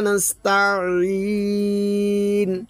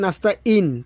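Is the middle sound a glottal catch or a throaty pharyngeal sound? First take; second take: pharyngeal; glottal catch. First: The middle sound is squeezed from the throat. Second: The middle sound is a plain glottal catch. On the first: It asks for help. The speaker calls it right. "আমরা যদি আইনের উচ্চারণ দিই" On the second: It asks for misfortune. The speaker calls it wrong. "আমরা যদি বলি নাস্তা ইন"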